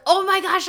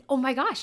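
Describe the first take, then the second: First: Put-on high, loud burst of kid excitement; excited kid. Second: Said in the usual way. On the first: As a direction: squeal it like a thrilled student. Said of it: "kid can come in and be like". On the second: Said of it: "we get the opportunity to say".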